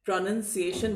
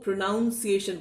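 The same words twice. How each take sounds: First: प्रोनंसिएशन with short "nun"; the right way, प्रोनंसिएशन; correct pronunciation. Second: प्रोनाउंसिएशन with "noun" in the middle; the common mistake प्रोनाउंसिएशन; wrong pronunciation. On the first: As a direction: say प्रोनंसिएशन as pro-nun-si-ay-shun. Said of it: "प्रोनंसिएशन बोलेंगे". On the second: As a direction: say प्रोनाउंसिएशन as pro-noun-si-ay-shun. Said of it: "वो प्रोनाउंसिएशन बोलते हैं". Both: Shown as a demonstration.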